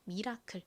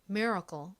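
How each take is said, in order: First: It is said with Korean-style syllables. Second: It is said with an American accent. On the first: "한국식으로 읽을 때는" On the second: "실제 미국식 원어 발음으로는 CLE가 된 소리로 go처럼 발음이 되어서"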